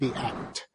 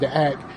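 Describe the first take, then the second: First: It is said with careful, crisp enunciation. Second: It is said in his casual everyday dialect.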